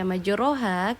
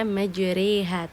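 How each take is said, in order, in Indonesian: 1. Vokal setelah r adalah bunyi a terbuka. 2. Vokal setelah r condong ke bunyi e. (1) "kenapa tidak saya baca majroha?" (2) "terdengar seperti huruf E di situ"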